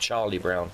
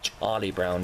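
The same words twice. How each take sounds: First: The name begins with a hard 'ch' sound. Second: The name begins with a soft 'sh' sound. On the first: The speaker calls it right. "You call them Charlie Brown" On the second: The speaker calls it wrong. "You don't call them Charlie Brown, do you?"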